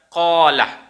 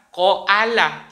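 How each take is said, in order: First: The middle vowel is one long, unbroken sound. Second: A glottal stop splits the middle vowel. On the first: The speaker calls it right. "Maka dibaca kola" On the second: The speaker calls it wrong. "itu alif, bukan hamzah. Maka tidak dibaca koala"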